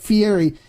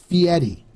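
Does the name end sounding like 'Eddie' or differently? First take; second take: differently; Eddie. First: The ending does not sound like 'Eddie'. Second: The ending sounds like 'Eddie'. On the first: The speaker calls it wrong. "It's not Fieri" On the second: The speaker calls it right. "it's Fieri. So the way it's pronounced is like Fee and Eddie"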